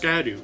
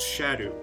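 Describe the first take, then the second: First: The word begins with an 'sk' sound. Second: The word begins with an 'sh' sound. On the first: The speaker calls it wrong. "which is not pronounced skadu" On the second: The speaker calls it right. "It's pronounced shadow"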